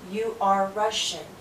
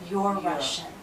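First: 'You are' is said as two full words. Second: 'You are' is shortened to one syllable. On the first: "when we speak slow, we say two words" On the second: "But when we speak fast, just like I am becomes I'm, you are becomes"

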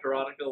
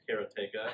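First: The word does not sound like 'karate' plus 'ka'. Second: The word sounds like 'karate' plus 'ka'. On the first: The speaker calls it wrong. "Most people said Karateka" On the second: The speaker calls it right. "it's Karateka. It just sounds as karate with the K-A after it"

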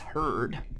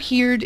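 First: The vowel sounds like the one in 'her'. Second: The vowel sounds like the one in 'here'. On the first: The speaker calls it right. "it's heard" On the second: The speaker calls it wrong. "it has hear, but it's not heard"

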